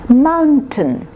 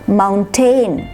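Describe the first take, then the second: First: Only the first syllable is stressed; second is reduced. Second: Both syllables get equal stress. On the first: The speaker calls it right. "It's tin" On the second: The speaker calls it wrong. "When you say tain, then you're giving equal stress to both parts"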